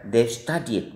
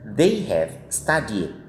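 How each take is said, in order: First: The word have is shortened to ve. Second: The word have is said in full.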